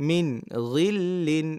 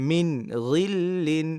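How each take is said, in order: No difference in how they are said.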